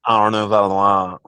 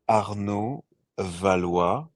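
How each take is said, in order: First: The name is said with an American accent. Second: The name is said with a French accent.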